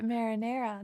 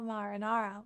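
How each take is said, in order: First: Said in the usual way. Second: "marinara" with ah vowels, mah-ruh-NAH-ruh; dictionary pronunciation. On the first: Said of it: "marinara is how I always say it". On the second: Shown as a demonstration. Streamer citing the dictionary, "marinara" said mah-ruh-NAH-ruh. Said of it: "dictionary says it's marinara".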